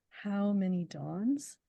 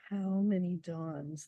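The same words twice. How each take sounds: First: Each of the three words weighed evenly, slow; weighted reading. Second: Slow, even stress on How many dawns; testing the stress. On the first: Poet showing the interviewer the three opening words, slow and weighted. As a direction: toll How, many, dawns like a bell. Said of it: "those three first words". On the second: Poet recalling puzzling over the stress on the subway, slow and even. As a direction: try the stress on each word. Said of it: "how the stress was". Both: Shown as a demonstration.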